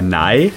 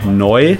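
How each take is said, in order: First: The word has the ei vowel. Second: The word has the eu vowel. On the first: This is how Bavarian speakers say it. "EU wird zu EI" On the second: This is the standard way of saying it. "für neu sagen wir"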